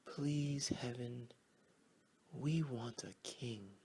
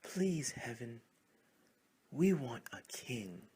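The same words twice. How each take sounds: First: First prayer. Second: A louder, more urgent plea; louder prayer. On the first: Frogs say their first prayer to heaven, humble. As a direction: pray it humbly. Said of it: "Frogs started to say their prayers". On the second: Frogs pray to heaven a second time, louder. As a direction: pray it harder than the first time. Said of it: "louder this time". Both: Acted.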